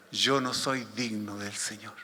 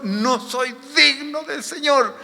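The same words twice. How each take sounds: First: Quiet, low, slow inner confession; pensamiento de Pedro. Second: High, slow cry of unworthiness; pensamiento de Pedro. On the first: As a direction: think it aloud, low and slow. (pensamiento en voz baja, grave y lento) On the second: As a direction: draw it out high, as an anguished confession. (confesión de indignidad, aguda y alargada) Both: Acted. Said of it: "Pedro en este momento pensaba".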